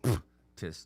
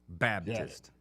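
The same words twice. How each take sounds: First: The middle consonant sounds like a P. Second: The middle consonant sounds like a B. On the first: The speaker calls it wrong. "nobody says that" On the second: The speaker calls it right. "the P in Alabama is pronounced as a B"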